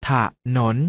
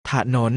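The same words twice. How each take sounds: First: ถะหนน split into ถะ and หนน; short ถะ, tiny gap, then หนน; syllable by syllable. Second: Said in the usual way. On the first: Shown as a demonstration. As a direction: sound out ถะหนน in two beats. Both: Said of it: "อ่านว่า".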